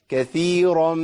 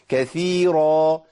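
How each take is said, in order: First: The r sound is heavy and full. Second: The same.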